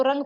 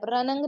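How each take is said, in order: First: रंग as one syllable, n hidden in the nose; hidden nasal n. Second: रनंग broken into two syllables with a full n; wrong extra n. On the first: Urdu teacher giving learners the right reading, hidden nasal n. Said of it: "इसको रंग पढ़ेंगे आप". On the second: Urdu teacher warning learners off a reading, extra n demo. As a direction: add a sounded n syllable in रनंग. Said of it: "रनंग नहीं पढ़ेंगे". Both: Shown as a demonstration.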